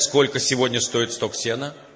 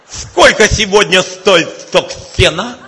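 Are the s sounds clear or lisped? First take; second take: clear; lisped. First: The s sounds are pronounced clearly. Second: The s sounds are heavily lisped.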